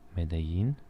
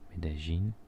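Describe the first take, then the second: First: The double L is said without a J sound. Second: The double L is said as a J sound.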